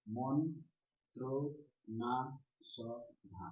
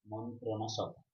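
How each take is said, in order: First: মন্ত্র না সভা very slow, each syllable separate; five drawn-out beats in মন্ত্র না সভা. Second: Said in the usual way. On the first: Shown as a demonstration. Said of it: "এভাবে তো উচ্চারণ করছি". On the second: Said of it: "সেইভাবে লিখতে হবে".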